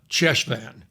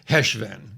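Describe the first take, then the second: First: It starts with an English 'ch' sound. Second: It starts with a rough throat sound. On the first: "I'll give it the Anglo-Saxon, you know, interpretation or, or pronunciation" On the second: "But I think it's Heshvan"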